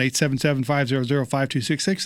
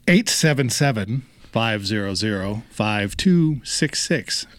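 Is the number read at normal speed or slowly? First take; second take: normal speed; slowly. First: The number is read at normal speed. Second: The number is read slowly.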